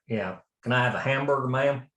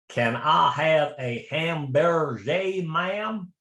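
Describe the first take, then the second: First: It is said in a Southern American accent. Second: It is said in a put-on French accent.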